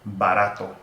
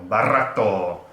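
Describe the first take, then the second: First: The R is a single quick tongue tap. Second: The R is a rolled, trilled sound. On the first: The speaker calls it right. "One flap of the tongue" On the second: The speaker calls it wrong. "I'm not saying carro, barato, nothing like that"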